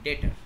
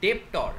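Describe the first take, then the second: First: No b-like consonant is sounded in the middle. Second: A b-like consonant is sounded in the middle. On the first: The speaker calls it right. "বি এর pronunciation এখানে হয় না" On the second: The speaker calls it wrong. "ডেপ্টর এইরকম বাজে উচ্চারণ করবে না"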